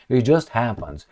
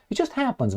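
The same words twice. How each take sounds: First: Said in the usual way. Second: High, soft, faux-innocent shrug of a line; mock innocence. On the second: To viewers, mocking the "coincidence", high and soft. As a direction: toss it off sky-high and sweetly sarcastic. Sarcastic aside on foreign leaders.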